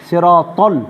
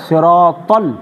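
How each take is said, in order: Both takes have the same delivery.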